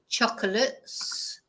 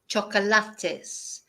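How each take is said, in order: First: Some vowels are reduced, with fewer clear syllables. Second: Every vowel and every syllable is fully pronounced. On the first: "So in English, ... In English, we don't" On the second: "In Spanish, ... we pronounce every vowel, every syllable"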